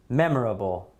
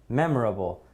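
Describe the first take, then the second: No difference in how they are said.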